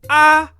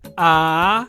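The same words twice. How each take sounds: First: The pitch is high and level. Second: The pitch falls and then rises. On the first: "The high tone, when you raise the pitch of your voice" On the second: "the rising tone is sa"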